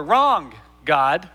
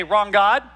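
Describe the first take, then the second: First: WRONG drawn out and leaned on, GOD set apart after it; stress on WRONG. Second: Said in the usual way. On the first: Shown as a demonstration. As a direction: stretch the word wrong, then drop to God. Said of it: "put the emphasis on the wrong". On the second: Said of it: "how you say it".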